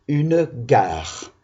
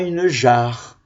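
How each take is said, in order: First: The word starts with a hard G sound. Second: The word starts with a soft J sound. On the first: The speaker calls it right. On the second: The speaker calls it wrong.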